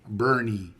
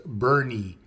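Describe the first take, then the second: First: The name is said as two syllables. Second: The name is said as two syllables.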